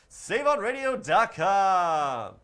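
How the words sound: It is said in a put-on radio announcer voice.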